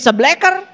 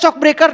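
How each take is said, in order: First: It is said clipped, with sounds merged locally. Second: It is said with full English-like consonants. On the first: This is how local mechanics say it. "Nah dibaca jadi sebleker" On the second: This is how the word is written. "Tingali atuh tulisannya shock breaker"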